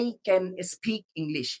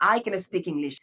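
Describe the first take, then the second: First: The sentence is said at a normal pace. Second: The sentence is said a bit faster.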